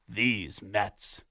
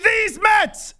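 First: The phrase sounds disgusted and fed up. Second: The phrase sounds proud and upbeat. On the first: The team let everyone down in the usual way. "And they ended up being, ugh" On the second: The team was expected to be different and special. "This was supposed to be these Mets"

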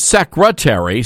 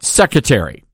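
First: The r after the first syllable is pronounced. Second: The r after the first syllable is dropped. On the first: The speaker calls it right. "The correct pronunciation of the word is secretary" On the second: The speaker calls it wrong. "not secretary"

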